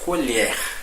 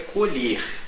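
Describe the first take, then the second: First: The stressed vowel is open. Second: The stressed vowel is closed. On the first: It means a spoon used for eating. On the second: It means to harvest a crop.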